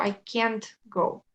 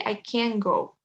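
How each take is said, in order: First: "can't" with the final t fully pronounced, slowly; strong final T. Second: "can" said as can't with no t at the end; silent T. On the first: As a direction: sound out the T in "can't", slow. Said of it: "esa T no se pronuncia tan fuerte". («can't» con la t final marcada) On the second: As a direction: let the final t of "can" vanish, vowel kept full. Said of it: "No existe la T cuando pronuncio". («can» negativo, sin la t final) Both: Shown as a demonstration.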